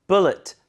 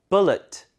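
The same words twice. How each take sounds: The two takes are said the same way.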